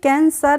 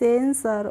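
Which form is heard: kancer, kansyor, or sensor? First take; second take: kancer; sensor. First: It starts with a k sound, ending 'sar'. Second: It starts with an s sound, ending 'sar'. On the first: The speaker calls it wrong. "कैंसर नहीं" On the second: The speaker calls it right. "लेकिन इसको हम पढ़ते हैं सेंसर"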